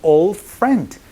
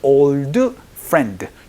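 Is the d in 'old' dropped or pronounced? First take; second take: dropped; pronounced. First: The d in old is barely heard. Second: The d in old is clearly pronounced. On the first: The speaker calls it right. "D 소리가 잘 나지 않기 때문에" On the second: The speaker calls it wrong. "이렇게 발음하지 않고"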